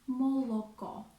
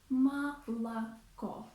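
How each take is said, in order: First: Every vowel is pronounced as a full 'o'. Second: The unstressed vowels are pronounced like 'a'. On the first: The speaker calls it wrong. "we do not say молоко. It's wrong" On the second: The speaker calls it right. "A Russian native speaker would say молоко"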